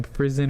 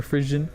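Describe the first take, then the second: First: Frison said "FRIZ-un", with a buzzing z. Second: Frisian said "FRIZH-un". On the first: Vlogger offering the first of two guesses, Frison with a z sound. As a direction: say Frison with a z in the middle. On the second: Vlogger offering the second of two guesses, Frisian with a zh sound. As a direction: say Frisian with the zh of "vision". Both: Shown as a demonstration. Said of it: "don't know the correct pronunciation".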